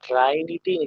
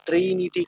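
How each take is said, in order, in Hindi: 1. पहला स्वर 'eye' शब्द जैसा लगता है। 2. पहला स्वर एक छोटी 'ih' ध्वनि है। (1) "उसको सर ट्राइनिटी नहीं" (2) "ट्रिनिटी कहते हैं"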